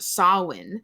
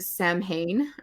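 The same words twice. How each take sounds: First: It is pronounced differently from its spelling. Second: It is pronounced the way it is spelled. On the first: The speaker calls it right. "I saw that it was pronounced Samhain" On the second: The speaker calls it wrong. "most people pronounce it Samhain or something"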